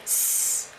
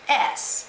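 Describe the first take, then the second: First: Only the hissing sound of the letter is said. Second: The letter's name, like 'ess', is said. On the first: The speaker calls it right. "you want them to think S" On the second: The speaker calls it wrong. "not S"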